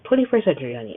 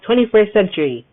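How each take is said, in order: First: Said in the usual way. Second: Twenty-first century punched louder, both words hit hard; emphatic catchphrase. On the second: Shown as a demonstration. Reminding podcast listeners of her motto, emphatic and louder. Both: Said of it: "I'm gonna keep saying that".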